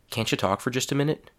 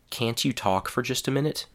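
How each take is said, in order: First: 'Can't you' is blended into 'cancha'. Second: 'Can't you' is said as two full words. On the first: "a whole sentence containing the reduced form" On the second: "a whole sentence with a full, unreduced form"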